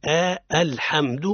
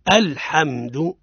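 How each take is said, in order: First: "آه، الحمد" with a long, stretched "آه" before the word; mock-wrong: draw out the opening into "آه" before "الحمد"; drawn-out wrong hamza. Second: "الحمد" said slowly with a clear glottal stop on the opening hamza; correct hamza at start. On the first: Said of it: "ما لا نقول عند الابتداء". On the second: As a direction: start "الحمد" with a crisp, light hamza, unhurried. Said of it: "وتقف تقول". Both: Shown as a demonstration.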